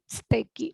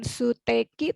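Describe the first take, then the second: First: The u after the first s is dropped. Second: The u after the first s is pronounced. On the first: The speaker calls it right. "tapi steki ... Agak disatukan" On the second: The speaker calls it wrong. "bukan suteki"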